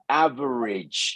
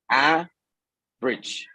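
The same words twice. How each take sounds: First: The word is said in three syllables. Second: The word is said in two syllables. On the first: "tres sílabas" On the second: "Dos sílabas"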